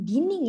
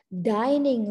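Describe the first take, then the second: First: The first vowel sounds like 'ee'. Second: The first vowel sounds like 'eye'. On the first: The speaker calls it wrong. "Jadi bukan dining ya" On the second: The speaker calls it right. "Tapi dibaca dining room ya"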